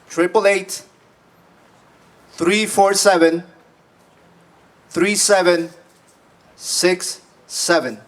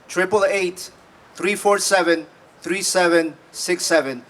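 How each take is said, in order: First: The number is read at a slower pace. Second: The number is read at a normal pace.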